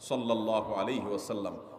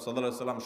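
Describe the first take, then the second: First: It is said slowly and with warm feeling. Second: It is rattled off quickly and hurriedly. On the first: It is recited with love and understanding. The speaker calls it right. "মোহাব্বতের সাথে" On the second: It is recited just to raise the count. The speaker calls it wrong. "তাড়াহুড়া করে পড়বেন না"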